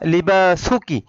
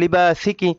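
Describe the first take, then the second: First: The vowel after 'libas' is a 'u'. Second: The vowel after 'libas' is an 'i'. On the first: The speaker calls it right. "পেশ বহাল থাকবে" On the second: The speaker calls it wrong. "অনেকে ভুল করে বলে লিবাসিকি"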